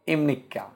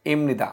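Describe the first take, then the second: First: ইমনিকা, falling, k doubled; teacher's model ইমনিকা; Korean question ending. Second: ইমনিদা, falling, im-ni-da; teacher's model ইমনিদা; Korean statement ending. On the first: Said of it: "তাহলে ব্যাগের পরে". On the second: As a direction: answer ইমনিদা with a falling close. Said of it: "ব্যাগের পরে কি যুক্ত হবে". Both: Shown as a demonstration.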